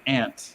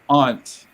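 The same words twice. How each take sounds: First: It is said in a West Coast Canadian accent. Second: It is said in an East Coast Canadian accent. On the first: This is how people in the west say it. "on the West Coast they say aunt" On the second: This is how the speaker from Halifax says it. "I would say like aunt"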